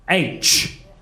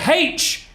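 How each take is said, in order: First: The letter name begins with a vowel sound. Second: The letter name begins with an h sound. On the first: The speaker calls it right. "It's supposed to be" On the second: The speaker calls it wrong. "I say it wrong"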